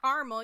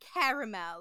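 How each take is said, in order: First: The word is said in the Midwestern way. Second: The word is said in the standard non-Midwestern way. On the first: This is how people say it in the Midwest. "we pronounce it wrong in the Midwest" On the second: This is how others say it when correcting. "don't you mean caramel?"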